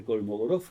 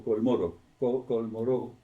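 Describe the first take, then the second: First: Kolmogorov said with all four syllables, Kol-mo-go-rov; first pronunciation variant. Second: Kolmorov in three syllables, Kol-mo-rov; alternative pronunciation variant. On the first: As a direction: say Kolmogorov in full, keeping the "go". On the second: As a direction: say Kolmorov without the "go", trying it out. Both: Shown as a demonstration. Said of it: "lo pronuncian de distinta manera".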